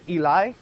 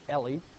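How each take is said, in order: First: The name ends with an 'eye' sound. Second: The name ends with an 'ee' sound. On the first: The speaker calls it right. "It's Eli" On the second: The speaker calls it wrong. "It's not Ellie"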